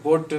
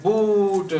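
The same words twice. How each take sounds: First: Boot with the oo cut short; short-vowelled boot; short U, wrong take. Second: Boot with the vowel stretched out; slow, long-vowelled boot. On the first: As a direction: clip the vowel in boot to rhyme with put. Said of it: "short sound of U". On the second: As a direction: hold the oo in boot. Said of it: "long sound". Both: Shown as a demonstration.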